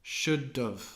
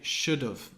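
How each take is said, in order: First: The word 'have' is reduced to 'of'. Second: The same.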